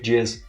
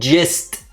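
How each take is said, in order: First: The word ends without a T sound. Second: The word ends with a clear T sound. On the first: The speaker calls it wrong. "you just said the big jizz" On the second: The speaker calls it right. "With a T at the end"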